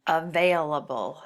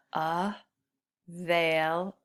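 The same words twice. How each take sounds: First: Said in the usual way. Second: "Available" drawn out very slowly, syllable by syllable; slowly stretched out. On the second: Shown as a demonstration. Teacher counting syllables by slowing the word down. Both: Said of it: "That's another four".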